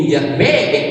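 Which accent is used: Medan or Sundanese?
Medan. It is said in a Medan accent. It is understood as rujak made with duck. "Datang orang Medan"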